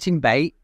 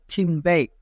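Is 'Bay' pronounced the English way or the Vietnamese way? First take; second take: Vietnamese; English. First: Bay is pronounced with Vietnamese sounds. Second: Bay is pronounced with English sounds.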